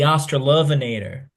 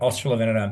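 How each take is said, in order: First: The name is said in an American accent. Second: The name is said in an Australian accent. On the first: The speaker calls it wrong. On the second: The speaker calls it right.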